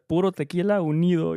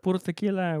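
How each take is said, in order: First: "Puro tequila unido" run together, higher and louder; botched toast call. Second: "Puro tequila" called out higher, stopping there for the reply; toast call cue. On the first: Client botching his toast by saying the reply himself, raised run-on call. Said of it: "And then he fucked up". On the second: Client rehearsing his toast with the musicians, raised call awaiting response. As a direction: call "Puro tequila" and leave the answer to others. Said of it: "he's gonna say, like". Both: Retold or imitated.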